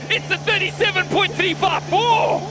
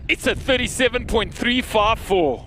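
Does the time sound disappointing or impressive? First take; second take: impressive; disappointing. First: It sounds like an impressive, fast time. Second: It sounds like a disappointing, slow time.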